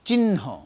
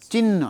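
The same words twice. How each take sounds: First: The n sound is breathy and aspirated. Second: The n sound is plain, without breathiness. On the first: The speaker calls it right. "নয়ের সাউন্ডটা হবে কি? মহাপ্রাণ" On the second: The speaker calls it wrong. "চিহ্ন নয়"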